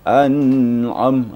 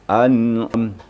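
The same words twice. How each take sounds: First: The n sound is held and drawn out. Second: The n sound lasts only one short beat. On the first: The speaker calls it wrong. "Tidak boleh dilamakan, ditahan suara. ... salah tu" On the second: The speaker calls it right. "Dia harus an'am. Satu ketukan"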